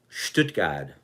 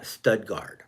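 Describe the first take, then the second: First: The name is said with a German pronunciation. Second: The name is said with an anglicized pronunciation. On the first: The speaker calls it right. "the real pronunciation of a simple name like Stuttgart" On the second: The speaker calls it wrong. "not Studgard"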